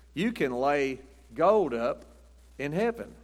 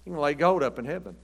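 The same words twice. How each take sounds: First: "You can lay gold up in heaven" drawn out slowly, weight on "gold"; slow emphasis. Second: Said in the usual way. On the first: Shown as a demonstration. Preacher slowing down to tell the church about gold in heaven, weighty. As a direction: let "gold" sink in, slowly.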